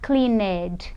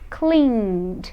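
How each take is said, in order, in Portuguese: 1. O final é falado como uma sílaba extra. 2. O final é só um som de d simples. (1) "Eu não vou falar cleaned" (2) "eu vou dizer cleaned"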